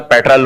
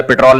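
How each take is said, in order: First: "پیٹرول" with open first vowel, PET-rul; foreign-style pronunciation. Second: "پٹرول" as pit-ROL with a long o; local Urdu pronunciation. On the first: Man correcting how the preacher says petrol, "پیٹرول" as PET-rul. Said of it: "اسی تا-، style سے بولنا چاہیے". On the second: Man rejecting the local form, "پٹرول" as pit-ROL. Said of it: "آپ کی اہل زبان جس طرح سے بول رہے ہیں". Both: Retold or imitated.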